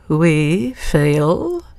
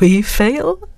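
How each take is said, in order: First: It is said in a threatening tone. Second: It is said in a cavalier tone.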